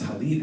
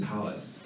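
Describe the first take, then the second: First: The word ends with a t sound. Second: The word ends with an s sound. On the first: It is the scholarly, literal Hebrew form. "talit would be the more um, scholarly way of saying it"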